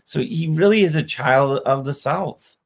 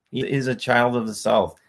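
First: "really" lifted high and pushed hard; stress on really. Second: Put-on "child" stressed with a falling tune. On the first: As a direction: punch "really", the rest even. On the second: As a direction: lean on "child", let the line fall. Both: Shown as a demonstration.

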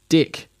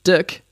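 First: "dick" as the Kiwi accent says deck, vowel close to i; "dick" in a Kiwi accent, meaning deck. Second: "dick" said as the actual word, pitched up for contrast; "dick" the ordinary word, raised and punched; real dick. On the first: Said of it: "How you would say D E C K". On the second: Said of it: "That's not the same as". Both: Shown as a demonstration.

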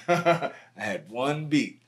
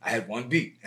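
First: I had one beat, stretched slow with a laugh; amused emphasis on how little he had; stress on one. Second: Said in the usual way. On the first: Shown as a demonstration.

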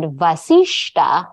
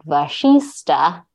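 First: Vasishta with s then sh; correct pronunciation. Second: Vashista said slowly, sh first; slow Vashista with sh sound first; wrong pronunciation. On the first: Reading the correct spelling she looked up. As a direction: say Vasishta, s before sh. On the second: Contrasting the wrong form she had used. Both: Shown as a demonstration. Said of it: "not Vashista".

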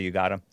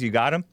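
First: Said as a statement, falling on "got"; "You got him." stated flatly, stress on "got". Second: Asked as a question, rising at the end on "him"; "You got him?" with a questioning lift on "him". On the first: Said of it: "we saw from two different angles he said". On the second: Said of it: "right after he says". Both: Retold or imitated.

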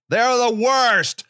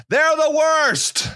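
First: Said in the usual way. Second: Slow, high, drawn-out "They're the worst" with the weight on "They're"; emphatic put-down. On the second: Acted. Comic ranting about liberals, a slow high-pitched "They're the worst". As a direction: stretch out "They're" in mock disgust.

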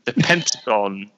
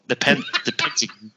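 First: British accent. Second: Pentagon said with a clipped British "Pen-tuh-gun"; mocking own British accent lightly. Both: Shown as a demonstration. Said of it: "You're making fun of my accent".

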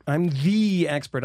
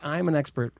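First: "the" stretched out long as "thee"; stress on "the". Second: Said in the usual way. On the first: Retold or imitated. Conspiracy theorist boasting, "the" drawn out and stressed. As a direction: lean hard and slow on "the".

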